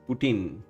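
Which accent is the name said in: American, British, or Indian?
American. The name is said in an American accent. "American says"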